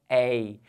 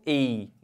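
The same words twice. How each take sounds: First: The diphthong is said open. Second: The diphthong is said closed. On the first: "esses são os nossos ditongos abertos" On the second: "Ei seria um ditongo fechado"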